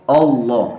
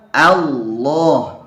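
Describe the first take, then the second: First: The opening hamzah vowel sounds heavy and thick. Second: The opening hamzah vowel sounds light and thin. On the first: The speaker calls it wrong. "Jadi berubah hamzahnya jadi tebal" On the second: The speaker calls it right. "Tapi a tipis"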